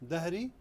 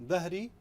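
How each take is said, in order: No difference in how they are said.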